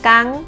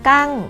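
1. พยางค์นี้มีเสียงสูง 2. พยางค์นี้มีเสียงตก (1) "กังไม่ตี" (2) "กังไม่โท"

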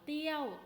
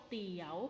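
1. พยางค์นี้เป็นเสียงตก 2. พยางค์นี้เป็นเสียงขึ้น (1) "โท" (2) "จัตวา"

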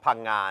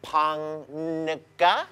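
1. ชื่อนี้อ่านเป็นสองพยางค์ 2. ชื่อนี้อ่านเป็นสามพยางค์ (1) "เขาอ่านคำว่าพังงา" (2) "ฝรั่งก็เจอแล้วแบบ"

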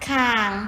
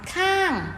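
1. พยางค์นี้ออกเสียงเป็นเสียงต่ำ 2. พยางค์นี้ออกเสียงเป็นเสียงตก

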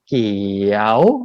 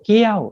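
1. เสียงตกลงแล้วโค้งขึ้น 2. เสียงขึ้นไปสูง (1) "[name]ทำลูกศรโค้งเนี่ยเพราะว่าเสียงมันเป็นเกี่ยวแบบนี้" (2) "ไม่โทเกี้ยวเสียงสูงขึ้น"

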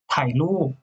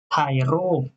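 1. Le deuxième mot commence par un son L. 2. Le deuxième mot commence par un son R. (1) "Mais familièrement" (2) "C'est la prononciation formelle"

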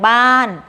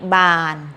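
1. พยางค์นี้ออกเสียงแบบตก 2. พยางค์นี้ออกเสียงระดับกลาง (1) "ไม้โท" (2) "บออานอบาน"

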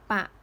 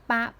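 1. พยางค์นี้ออกเสียงด้วยเสียงต่ำ 2. พยางค์นี้ออกเสียงด้วยเสียงต่ำ

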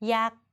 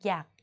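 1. พยางค์นี้ออกเสียงสามัญ 2. พยางค์นี้ออกเสียงเอก (1) "สามัญ" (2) "เอก"

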